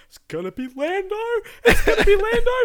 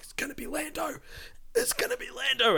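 First: High, loud, giddy chant breaking into a laugh; giddy excitement. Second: High, hushed eager chant to a friend; excited hush. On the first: Telling the co-host how he hoped for Lando, high giddy squeal. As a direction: squeal it like a fan who knows. Retold hope in cinema. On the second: Grabbing his friend Matt in the cinema, high hushed excitement. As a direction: lean over and tip off a friend. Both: Retold or imitated.

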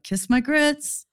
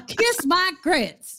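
First: Flo's catchphrase, slower and a bit higher; sassy diner waitress brushing someone off. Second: Much higher, louder and very slow sassy catchphrase; hammed-up Flo. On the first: Retold or imitated. Dreaming of running a diner, quoting Flo in a sassy drawl. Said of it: "Be like". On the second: Host hams up Flo's line for the episode title. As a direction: belt it out like a sassy diner waitress.

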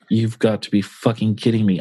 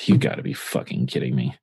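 First: Said in the usual way. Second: Low, sighing disbelief; sigh, then sink low in defeat; deflated. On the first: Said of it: "And I'm like". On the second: Retold or imitated. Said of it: "I just literally just deflate into".

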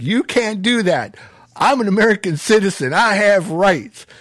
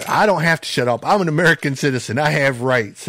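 First: High-pitched mock outrage, imitating the arrested cousin; indignant protest. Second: Higher-pitched retold backtalk; mildly defiant. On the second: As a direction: talk back like a cocky young man, held in check. Cousin talks back to sheriff.

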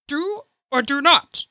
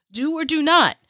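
First: Terrible Yoda. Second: "Do or do not." said higher and excited, her own voice; hyped repeat. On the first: Vlogger voicing Yoda's line in a bad impression, pitched up. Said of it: "Terrible accent". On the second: Vlogger quoting Yoda's line in her own voice, excited. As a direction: proclaim "Do or do not." like a fan. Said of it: "It was like". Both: Retold or imitated.

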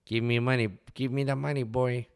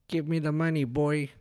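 First: Tola. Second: High put-on gangster-rapper voice; botched Tola voice. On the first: Shown as a demonstration. Man retries the restaurant owner's voice, high and demanding. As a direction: put on an older local character's demanding voice, pitched up. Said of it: "do a better Tola voice". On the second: Man tries imitating restaurant owner, lands on gangster. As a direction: overdo it like a wannabe rapper, pitched high. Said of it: "trying to be a gangster, like a rapper".

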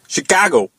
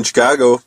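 First: A hammy Chicago accent. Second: Said in the usual way. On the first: Shown as a demonstration. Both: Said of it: "I don't know if that's a Chicago accent".

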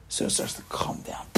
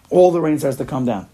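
First: Hushed, breath only, like light rain beginning; whispered. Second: Said in the usual way. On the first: Shown as a demonstration. Preacher whispering as the rain begins, hushed. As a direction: whisper the first drizzle.

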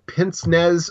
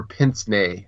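First: PINCE-NEZ said as "pints-nezz", final Z sounded; anglicised pronunciation. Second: PINCE-NEZ said as "pints-nay", silent Z; closer-to-French pronunciation. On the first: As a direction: say pince-nez the English way, as spelt. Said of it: "how do you pronounce it?". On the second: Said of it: "you're closer with the second one". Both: Shown as a demonstration.

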